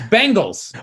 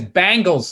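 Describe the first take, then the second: First: It sounds like the team name Bengals. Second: It sounds like the band name Bangles. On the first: "It's it's it's Bengals" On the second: "My buddy says he says Bangles, like the girl band"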